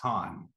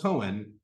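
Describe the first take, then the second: First: It is said as one syllable, like 'Khan'. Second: It is said as two syllables, like 'Cohen'. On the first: The speaker calls it right. "My last name is actually pronounced Khan" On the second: The speaker calls it wrong. "often called Cohen"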